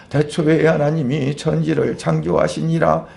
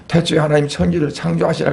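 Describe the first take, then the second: First: A hint of reading scripture like a Confucian primer, evenly intoned; mildly mimicked old-fashioned scholarly reading; classical-Chinese-style recitation. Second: Said in the usual way. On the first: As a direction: lightly imitate old village-school recitation. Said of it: "한문을 읽는 식으로 읽는 거예요". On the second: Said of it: "그러면".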